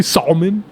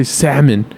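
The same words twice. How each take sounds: First: "salmon" with a sounded l, SAL-mun; imitated Australian's "salmon", l clearly heard as SAHL-mun; L pronounced. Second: "salmon" with silent l, said SAM-un; quoted American "salmon", no l sound; American pronunciation. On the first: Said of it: "I pronounce my L's". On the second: Retold or imitated. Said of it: "You Americans".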